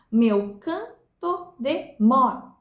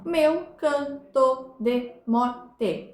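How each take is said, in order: First: Slow separated syllables in "Meu canto de morte", landing hard on "mor"; "morte" split, strong "mor" and long gap before a faint "te"; counting to stressed syllable. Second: Very slow "meu canto de morte", broken syllable by syllable; each syllable of "meu canto de morte" equally spaced; grammatical syllable division. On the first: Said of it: "conta-se até a última sílaba tônica". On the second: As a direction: count out "meu canto de morte" with every syllable separate, final "te" fully sounded. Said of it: "distribuir as sílabas gramaticais". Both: Shown as a demonstration.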